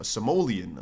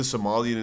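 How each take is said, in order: First: Somalian said "suh-MOH-lee-un"; Somalian with long O. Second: Said in the usual way. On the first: Real, not acted. Streamer correcting himself about big gym dudes, Somalian as "suh-MOH-lee-un". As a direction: put an "oh" in the middle of Somalian.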